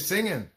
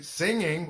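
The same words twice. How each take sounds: First: The final g sound is dropped, ending on n. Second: The final g sound is clearly pronounced. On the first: The speaker calls it wrong. "we say singing" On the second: The speaker calls it right. "Or if we say singing"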